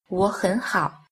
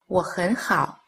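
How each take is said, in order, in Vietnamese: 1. Hai âm tiết đầu có thanh hai. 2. Chỉ âm tiết giữa có thanh hai. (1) "hai thanh đầu đọc thành thanh hai" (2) "thanh ở giữa đọc thành thanh hai"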